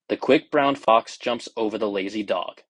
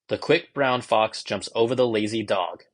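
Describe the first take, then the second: First: The voice sounds muffled, as if inside a tube. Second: The voice sounds natural and fairly clean. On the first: "sometimes felt like you were trapped inside of like of a covering or a little bit of a tube" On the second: "more natural. There's a little more beat to the sound and just a lot cleaner"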